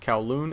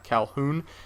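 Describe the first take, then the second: First: It sounds like 'cow-loon'. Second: It sounds like 'cal-hoon'. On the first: The speaker calls it right. "Notice I said Kowloon" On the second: The speaker calls it wrong. "I used to make that mistake very often"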